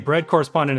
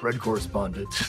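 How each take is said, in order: First: It is said in his normal voice. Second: It is said in a gravelly Batman voice.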